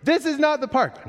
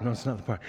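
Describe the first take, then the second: First: Put-on high little-boy complaint; kid complaining. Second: Quieter, lower tired answer; weary dad reply. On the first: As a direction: imitate a preschooler whining in the store. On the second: Retold or imitated. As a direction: answer the kid softly and patiently. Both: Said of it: "guess what happens".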